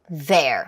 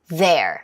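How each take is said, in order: The two takes are said the same way.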